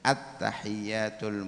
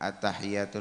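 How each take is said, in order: First: The y sound is held and doubled. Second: The y sound is short and single. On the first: The speaker calls it right. "At-tahiyat itu ada tasydidnya" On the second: The speaker calls it wrong. "Jangan sampai"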